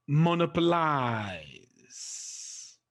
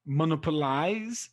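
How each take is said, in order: First: Monopolize drawn out very slowly, long falling last syllable; demonstrated word stress. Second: Said in the usual way. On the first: Shown as a demonstration. Teacher giving an example of the rule, monopolize hugely elongated. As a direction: stretch monopolize right out, trailing down on LIZE. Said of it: "The stress is placed on the third syllable". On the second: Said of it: "so you just count one".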